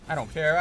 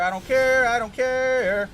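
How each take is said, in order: First: Said in the usual way. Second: Higher, louder, the last one slow and drawn out; angry outburst. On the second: Real, not acted. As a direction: blow up in real frustration. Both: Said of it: "I'm mad".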